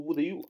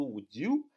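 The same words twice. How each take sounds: First: "would you" with the d and the y kept separate; no blending in "would you", plain d then "you"; unlinked "would you". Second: "would you" blended, d and y merging into a j sound; one joined-up "would you", no gap; linked "would you". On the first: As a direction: pronounce "would you" as two distinct words. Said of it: "不读，不读would you啊". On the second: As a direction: run "would you" together like "wu-jou". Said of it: "要连读would you啊". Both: Shown as a demonstration.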